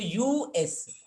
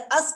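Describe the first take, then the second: First: It is said as two separate letters. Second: It is said as one single word. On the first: The speaker calls it right. "अलग अलग letters हम इसको pronounce कर रहे हैं, यानी यू और एस" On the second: The speaker calls it wrong. "हम इसको अस नहीं कह रहे"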